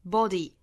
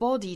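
First: A wide open American vowel is used in body. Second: A rounded British vowel is used in body. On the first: "美音的话呢上下开口都更大一些 body" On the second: "英音的话呢是口型向前聚拢的一个 body"

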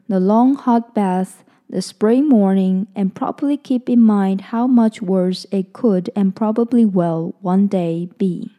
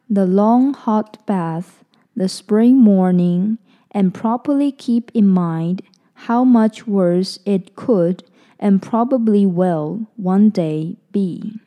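First: It is read at normal speed. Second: It is read a little more slowly.

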